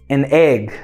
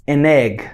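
The two takes are said the same way.

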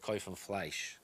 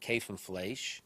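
First: It is said in a Polish Yiddish accent. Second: It is said in a Lithuanian Yiddish accent. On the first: "And in Polish Yiddish, they would say" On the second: "In Lithuanian Yiddish, people would say"

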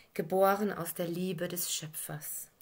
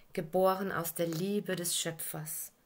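The two takes are said the same way.

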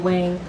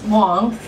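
First: The name is said with an English pronunciation. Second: The name is said with a Chinese pronunciation.

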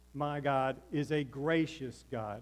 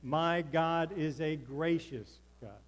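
First: It is said plainly, without extra conviction. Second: It is said with strong, emphatic conviction.

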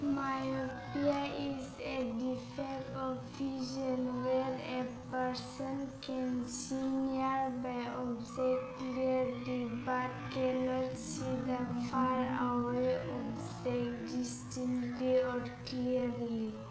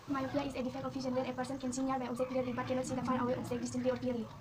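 First: It is said too slowly. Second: It is said too fast.

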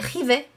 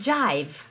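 First: It is read with Spanish letter sounds. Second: It is pronounced with English sounds. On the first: The speaker calls it wrong. "no se lee jive" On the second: The speaker calls it right. "sino que se lee jive, es como se pronuncia en inglés"

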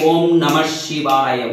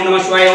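First: Each syllable is given its full time. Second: The syllables are rushed together quickly. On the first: The speaker calls it right. "जिस अक्षर को जितने समय में बोलना चाहिए" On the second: The speaker calls it wrong. "शीघ्र यानी शीघ्र शीघ्र बोलना"

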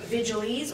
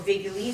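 First: It is said with an English pronunciation. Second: It is said with a Latin pronunciation.

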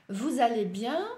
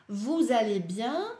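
The two takes are said the same way.

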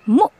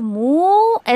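First: The vowel is cut off sharply with a catch. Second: The vowel is drawn out smoothly without a catch. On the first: The speaker calls it right. "ऐसे थोड़ा सा झटका देकर पढ़े" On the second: The speaker calls it wrong. "आप इसको मुँह ऐसे नहीं पढ़ सकते"

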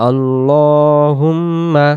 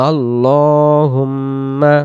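No difference in how they are said.

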